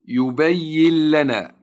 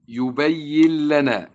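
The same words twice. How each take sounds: No difference in how they are said.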